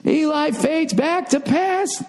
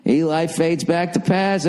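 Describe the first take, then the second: First: "Eli fades back to pass" said much higher and slow, like a TV announcer; sportscaster. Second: Said in the usual way. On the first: Pretend. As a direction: drag out "Eli fades back to pass" in a hammed-up broadcast call.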